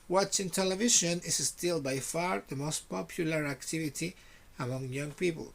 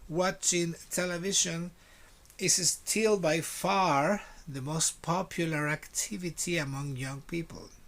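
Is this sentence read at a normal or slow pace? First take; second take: normal; slow. First: It is read at a normal conversational pace. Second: It is read at a slow, careful pace.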